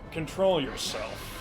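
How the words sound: It is said calmly in a Fiora voice.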